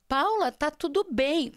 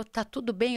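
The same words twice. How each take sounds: First: Slow, higher retold check; concerned mother. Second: Said in the usual way. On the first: Mother checking on her daughter, slow and concerned. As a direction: draw it out, pitched up.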